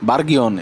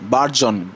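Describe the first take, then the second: First: It has a hard g followed by an extra syllable. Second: It has a soft j sound in two syllables. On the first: The speaker calls it wrong. "অনেকে উচ্চারণ করবে এরকম ভাবে যে বার্গিয়ন" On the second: The speaker calls it right. "এটা হবে বার্জন"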